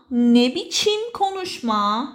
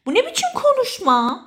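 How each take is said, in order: First: Slow, drawn-out question; slow teaching repeat. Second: High-pitched, affronted question; indignant rebuke. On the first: Shown as a demonstration. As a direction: lay it out word by word for a learner. Repeats phrase slowly for learners. (آهسته و کشیده) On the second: Acted. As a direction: take offence, pitch jumping up. Models scolding someone's way of talking. (با لحن معترض و صدای بالا)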